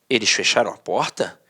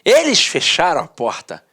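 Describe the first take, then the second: First: It is read as a question. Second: It is read in a happy, lively way.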